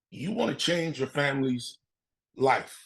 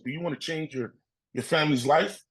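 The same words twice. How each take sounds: First: Said in the usual way. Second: Rising question on "life"; question intonation. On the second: Retold or imitated. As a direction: ask it, lifting the pitch on "life". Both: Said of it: "he asked me questions".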